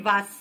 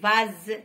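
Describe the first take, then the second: First: The middle consonant is a hissing s sound. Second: The middle consonant is a buzzing z sound. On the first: The speaker calls it wrong. "ماشي فاس" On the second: The speaker calls it right. "نقولوا vase"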